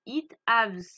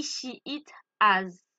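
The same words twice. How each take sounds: First: It haves with a loud S at the end; wrong form. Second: It has said slowly and loud; correct form. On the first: Teacher showing the mistake students make. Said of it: "c'est faux". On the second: Teacher giving the correct form to students. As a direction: stretch out has, slow and firm. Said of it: "C'est he". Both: Shown as a demonstration.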